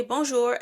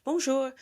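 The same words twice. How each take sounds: First: Said in the usual way. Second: A bright, high "Bonjour." with French vowels, pitch jumping up; French greeting. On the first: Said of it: "you say bonjour". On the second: Retold or imitated. Tourist greeting a shopkeeper, a cheery high "Bonjour.". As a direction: greet them with a sing-song French "Bonjour.".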